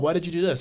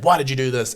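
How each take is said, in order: First: It sounds nice and curious. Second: It sounds harsh and accusing. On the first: The reviewer genuinely wants to understand. The speaker calls it right. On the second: The reviewer is attacking the work. The speaker calls it wrong.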